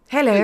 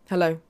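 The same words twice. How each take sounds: First: It is said in an impression of the Queen. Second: It is said in the speaker's normal voice.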